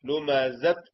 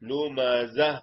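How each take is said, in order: First: The word ends with a clear t sound. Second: The word ends softly without a t sound. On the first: The speaker calls it wrong. "ലുമസത്ത് എന്ന് പറയണ്ട, താ വരണ്ട" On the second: The speaker calls it right. "അത്ത് എന്നല്ല വര, അഹ്"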